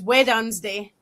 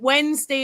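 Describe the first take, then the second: First: Wednesday is said with the local coastal pronunciation. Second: Wednesday is said with the standard pronunciation.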